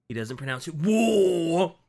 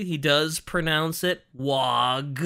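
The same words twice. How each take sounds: First: "war" said as war, no G; "war" drawn out slowly; war pronunciation. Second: "wog" said as wog, with a hard G; "wog" spoken slowly with a rough G; wog pronunciation. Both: Shown as a demonstration.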